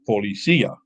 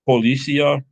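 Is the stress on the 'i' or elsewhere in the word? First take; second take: on i; elsewhere. First: The stress falls on the 'i'. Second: The stress is not on the 'i'. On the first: The speaker calls it right. "The accent goes on the I" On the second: The speaker calls it wrong.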